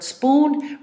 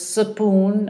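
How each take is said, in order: First: The word starts with s and p together. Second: A short vowel separates the s and p. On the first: The speaker calls it right. "the word spoon" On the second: The speaker calls it wrong. "put a short vowel between the consonants"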